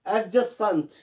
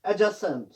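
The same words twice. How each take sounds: First: एडजेसेंट with an audible D before J; wrongly sounded D. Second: एडजेसेंट with no D, "a-jasent"; silent D. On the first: Teacher shows the mistake, D sounded in एडजेसेंट. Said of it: "ये गलत है". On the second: Teacher models the correction, D silent in एडजेसेंट. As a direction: say एडजेसेंट, dropping the D. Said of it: "डी इसमें silent रहता है". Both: Shown as a demonstration.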